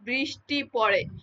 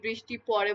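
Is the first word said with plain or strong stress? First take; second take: strong; plain. First: The first word carries strong stress. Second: The first word carries no special stress. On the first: "বৃষ্টিতে আমি জোর দিচ্ছি" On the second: "normally বৃষ্টি পড়ে বলতেছি"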